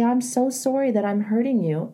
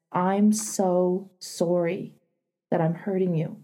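First: Said in the usual way. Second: Gentle apology. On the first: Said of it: "You can say". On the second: Shown as a demonstration. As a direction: say it tenderly, taking your time. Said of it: "you can say it like this".

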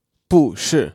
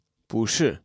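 First: 不是 with both syllables falling; unchanged fourth tone. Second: 不是 with 不 rising, 是 falling; second tone on 不. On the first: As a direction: drop sharply on 不, then again on 是. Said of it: "instead of". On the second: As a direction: let 不 go up before 是 drops. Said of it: "it changes to second tone". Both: Shown as a demonstration.

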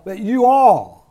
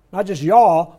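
First: You all split into two full words, slow and loud; stress on you all. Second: Y'all said quick and run together as one syllable; the casual one-word y'all. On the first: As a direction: lean hard on both words of you all. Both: Shown as a demonstration.

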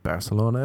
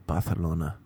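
First: Said in the usual way. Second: "Barcelona" as Bah-the-lona; lisped Catalan claim. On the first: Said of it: "say it like a Cork person". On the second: Retold or imitated. Teacher refusing the pupils' version, "Barcelona" with TH. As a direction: firmly lisp the C in "Barcelona". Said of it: "that's how the Catalan people say it".

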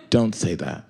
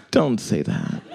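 First: A stifled laugh, quieter; laughing through it. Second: Smiling voice. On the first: Retold or imitated. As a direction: scold while trying not to laugh. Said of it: "I heard that she was smiling". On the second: Shown as a demonstration. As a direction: let the smile leak into the scolding. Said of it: "I could hear a smile".

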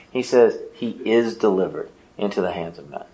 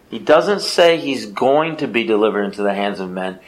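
First: "is" leaned on, softer and lower; quiet weight on the word "is"; stress on IS. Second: "going to be" set against "is", said evenly; contrast phrasing. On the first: Preacher to congregation correcting the reading, stressing "is". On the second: Preacher to congregation showing the wrong reading, plain. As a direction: lay out the wrong reading before correcting it. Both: Shown as a demonstration. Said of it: "I want to emphasize the word "is".

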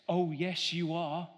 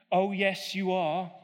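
First: Said in the usual way. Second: Pantomime villain's louder retort; egging on the crowd, louder; louder panto back-and-forth; louder panto call. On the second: Shown as a demonstration. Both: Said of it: "pantomime call and response".

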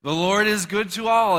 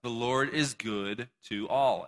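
First: Much louder and higher, ringing out ALL; preacher shouting it out for the crowd to echo; proclaimed shout. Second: Said in the usual way. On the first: Shown as a demonstration. Preacher to congregation, shouting the verse loudly. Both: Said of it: "Everyone say".

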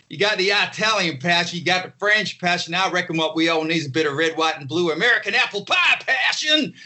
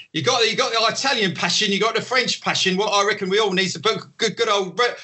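First: Higher, hammed-up American showman, shouting the finish; mock American. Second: Higher, hammed-up Cockney showman waiter; Cockney accent, higher and overdone; mock Cockney. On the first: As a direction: sell apple pie passion in a hammy American accent, ending in a shout. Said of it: "you gotta adopt the local accent". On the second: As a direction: play the local British waiter, pitching hard to the crowd in Cockney. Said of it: "go into some kind of Cockney".

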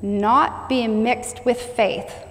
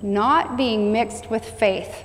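First: Every word drawn out, stressing not; preacher stressing not, very slow; slow emphatic reading. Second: Repeated just as slowly, weight on Not; preacher repeating the line, very slow; slow echo. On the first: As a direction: linger on each word. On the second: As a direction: let it sink in. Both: Shown as a demonstration.

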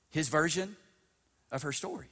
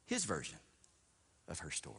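First: "His version" lifted high with a questioning rise; feed "His version of her story" to the room, pitched up; "His version of her story" held up expectantly; prompting answer. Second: "His version of her story" dropped low and soft; "His version of her story" as a hushed, falling echo; sinking repeat. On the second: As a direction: let "of her story" fall away quietly. Repeats the answer, letting it sink. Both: Real, not acted.

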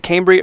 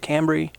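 First: Cambry with a long A, KAYM-bree; long A pronunciation. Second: Cambry with a short A, CAM-bree; short A pronunciation. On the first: Host checking a wrestler's name, Cambry said as KAYM-bree. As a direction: say Cambry so the first vowel rhymes with "came". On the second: Host offering the other option, Cambry said as CAM-bree. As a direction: say Cambry so the first vowel matches "cat". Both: Shown as a demonstration. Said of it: "Am I pronouncing it right?".

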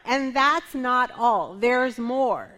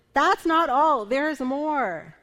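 First: Slow, punchy sales pitch; infomercial pitch. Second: Louder, higher TV pitchman hype; hammed-up late-night ad announcer; infomercial voice. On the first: Pretend. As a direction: sell it like a TV ad. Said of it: "Am I sounding like an infomercial here?". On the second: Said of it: "I kind of feel like an infomercial".

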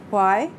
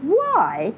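First: Even, controlled questioning; level. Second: Higher, drawn-out mock questioning; incredulous echo. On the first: Mother questions her critical children, levelly. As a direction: ask it levelly, holding the feeling back. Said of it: "She said levelly". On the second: Daughter echoes her mother's question, incredulous. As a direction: throw the question back in disbelief. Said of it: "Emmy made a face". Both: A narrator's reading.

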